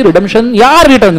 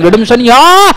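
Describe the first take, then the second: First: Said in the usual way. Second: redemption या called out loud, या hit hard; rising to a classroom shout on या; shouted emphasis. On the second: Shown as a demonstration. Teacher drilling a key phrase.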